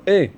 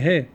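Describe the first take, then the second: First: The word begins without an h sound. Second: The word begins with an h sound. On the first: The speaker calls it wrong. "they weren't able to pronounce the letter he properly" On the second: The speaker calls it right. "Tell them say he"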